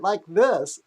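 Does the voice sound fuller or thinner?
thinner. The voice sounds thinner, with less resonance. "removed a little bit of his resonance"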